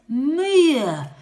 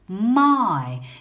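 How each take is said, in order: First: The letters are sounded out, giving a short 'i'. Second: The vowel sounds like the word 'eye'. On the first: The speaker calls it wrong. "it would sound like this. Mia. That sounds a bit strange" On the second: The speaker calls it right. "This tricky word says my"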